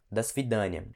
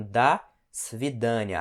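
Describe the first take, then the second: First: Said in the usual way. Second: "до свидания" slowly, pause after "до"; slow breakdown. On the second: Shown as a demonstration. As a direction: split "до" from "свидания", teaching it slowly. Teacher breaks the phrase down.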